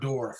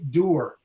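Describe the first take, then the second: First: Door is said with the standard modern vowel. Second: Door is said with an old local vowel.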